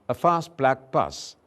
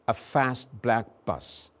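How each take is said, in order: First: It is said in a British English accent. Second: It is said in an American English accent. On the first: "the British version" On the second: "in American English this would very likely be"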